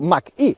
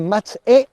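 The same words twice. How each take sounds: First: The name is read with the brand's pronunciation. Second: The name is read with Spanish pronunciation. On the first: This is how the maker prefers it said. "la marca prefiere pronunciarlo" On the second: This is how the name reads in Spanish. "En español su nombre se lee como"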